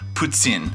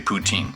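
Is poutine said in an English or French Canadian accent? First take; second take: French Canadian; English. First: It is said French-style, almost with an s sound. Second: It is said with a plain English pronunciation. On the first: "if you're French Canadian, they say it and it almost sounds like there's like an S in it" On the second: "I don't have a French accent, so when I say poutine, I say poutine"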